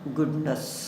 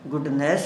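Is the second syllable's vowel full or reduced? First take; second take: reduced; full. First: The second syllable has a reduced 'nas' vowel. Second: The second syllable has a full 'ness' vowel. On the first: The speaker calls it right. "ये नेस ना बोलकर नस बन जाएगा" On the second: The speaker calls it wrong. "गुडनेस नहीं"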